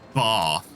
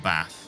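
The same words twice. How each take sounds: First: The word is said in a posh-sounding way. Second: The word is said in a plain, unposh way. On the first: "people still think that I'm posh because I say bath" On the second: "rather than bath"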